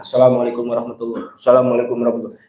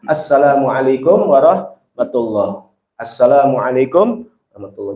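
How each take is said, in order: First: Both greetings are rushed together very fast. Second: A short calm pause separates the greetings.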